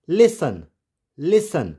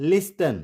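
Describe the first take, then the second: First: "listen" as LISS-un, no T; silent T. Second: "listen" as LIS-TEN, T pronounced; wrong sounded T. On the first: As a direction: leave the T out of "listen". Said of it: "लेकिन इसको pronounce नहीं करेंगे". ("listen" में टी silent, लिसन) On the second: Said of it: "it's not listen". ("listen" में टी बोलकर, लिस्टन) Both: Shown as a demonstration.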